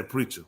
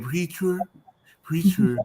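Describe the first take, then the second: First: "preacher" with the final R dropped; dropped ER ending. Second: "Preacher" with a put-on Spanish accent; imitated Spanish accent. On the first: Shown as a demonstration. Host shows how others say it, "preacher" without the R. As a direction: end "preacher" on a soft uh, no R. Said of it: "they don't put the E R on it". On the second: Host copies guest's word, "Preacher" in Spanish accent. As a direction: say "Preacher" as a Spanish speaker would. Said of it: "like you said".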